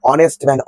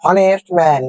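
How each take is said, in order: First: হনেস্ট man said as "onest man", H dropped; হনেস্ট with a silent H, "o-nest". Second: হনেস্ট man with a sounded H; mispronounced হনেস্ট, starting on an audible H; wrong H pronunciation. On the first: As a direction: drop the H and open হনেস্ট on "o". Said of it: "এই এইচটা এখানে নেই". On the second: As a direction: pronounce the H in হনেস্ট, "ho-nest". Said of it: "অনেকেই উচ্চারণ করে হনেস্ট man". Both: Shown as a demonstration.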